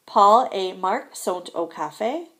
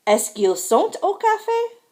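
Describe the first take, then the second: First: Slow, measured "Paul et Marc sont au café"; careful model sentence, "café" lifted only at the end; statement read-out. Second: High-pitched question climbing to "café"; raised voice pitch all the way through "café"; question intonation. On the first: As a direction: spell out "Paul et Marc sont au café" slowly at usual pitch. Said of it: "sentences on the left are statements". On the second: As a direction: push "sont au café" right up high as a question. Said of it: "sentences on the right are questions". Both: Shown as a demonstration.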